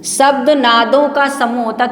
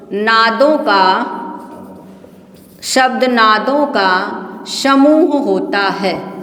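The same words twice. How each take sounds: First: Said in the usual way. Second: Very slow, spaced-out dictation; measured word-by-word dictation with long pauses. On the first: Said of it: "यही बात बोलकर आपको समझा रहे हैं". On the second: Shown as a demonstration. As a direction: draw out each word for students writing it down. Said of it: "लिखा हम बोल रहे हैं".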